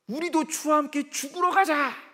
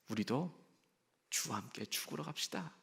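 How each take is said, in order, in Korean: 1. 엄숙하고 단호하며 결의에 찬 느낌입니다. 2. 희망 없이 한숨 쉬며 포기한 느낌입니다. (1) "뭔가 좀 비장하고 뭔가 준치적이고 뭔가 결의에 찬, 그 확신에 찬 상황입니다" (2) "세상 만사 다 포기한 상황입니다. 더 이상 희망이 없습니다"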